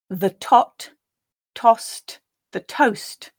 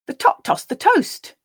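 First: The sentence is read slowly and carefully. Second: The sentence is read at a natural pace. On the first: "I will read the sentence quite slowly the first time for you to grab the meaning" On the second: "The second and third times I'll read at a more natural pace"

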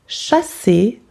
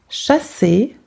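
Both takes have the same delivery.

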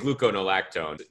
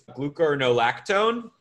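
First: The syllables of the word are run together. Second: Each syllable of the word is said clearly. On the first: The speaker calls it wrong. "I just smush it together" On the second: The speaker calls it right. "but it's gluconolactone"

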